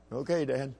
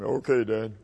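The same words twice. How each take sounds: First: Soft little reply; imitating obedient son. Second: Put-on boy forcing his voice down low; imitating lowered voice. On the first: Young son answering his dad's drill, meek imitation. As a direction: answer meekly as the small boy. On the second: Small son obeying dad's order to go lower, put-on low voice. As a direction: drop the pitch in mock-manly obedience. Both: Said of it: "lower your voice".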